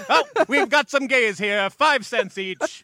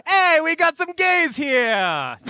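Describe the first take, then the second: First: High barker call, stretched out; loud carnival barker. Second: High, slow barker call; hammy New York mobster accent; loud carnival barker. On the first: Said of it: "it sounds like a carnival barker". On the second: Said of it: "anytime I try to do an accent". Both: Pretend.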